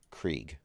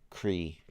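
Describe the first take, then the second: First: The name ends with a hard g sound. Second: The name ends on the vowel, no g sound. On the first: The speaker calls it wrong. "I don't think that's right" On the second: The speaker calls it right. "I don't think you pronounce the G"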